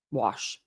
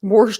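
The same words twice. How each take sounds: First: "Wash." said cleanly with no r, quieter and lower; "Wash." said lower and softer, no r, correcting; mom's correct wash. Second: "Warsh" said with an r slipped in, like warsh; "Warsh" with an intrusive r, grandma style; accidental warsh. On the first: Retold or imitated. Mom correcting her daughter's warsh, quietly. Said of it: "My mom would have been like". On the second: Real, not acted. Vlogger slipping into her grandmother's warsh. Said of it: "did I say warsh?".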